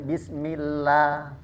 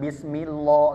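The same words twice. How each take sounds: First: The L sound is thin and light. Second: The L sound is thick and heavy. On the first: The speaker calls it right. "maka dia tarqiq" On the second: The speaker calls it wrong.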